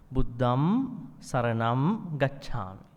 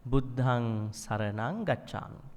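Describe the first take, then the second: First: Slow "Buddham saranam", closing on m; m endings. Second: Slow "Buddhang saranang", endings in ng; nasal ng endings. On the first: Teacher shows monks' ordination chanting with m. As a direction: shut the lips on "Buddham". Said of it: "It ends in M". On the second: Teacher shows lay precept chanting with ng. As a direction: end "Buddhang" on ng not m. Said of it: "ending N". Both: Shown as a demonstration.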